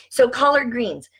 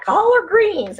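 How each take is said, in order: First: Said in the usual way. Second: High, loud try at a Southern collard greens; failed Southern accent imitation; attempted Southern accent. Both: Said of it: "I can't say it like the Southern".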